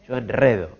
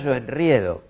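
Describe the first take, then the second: First: The stressed vowel is a plain 'e'. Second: The stressed vowel is the diphthong 'ie'. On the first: The speaker calls it right. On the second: The speaker calls it wrong.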